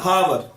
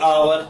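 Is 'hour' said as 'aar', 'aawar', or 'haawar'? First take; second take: haawar; aawar. First: It starts with an h sound, two syllables. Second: No h sound, but still two syllables. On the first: "कई बच्चे इसे बोलेंगे हावर" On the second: "कई बोलेंगे आवर"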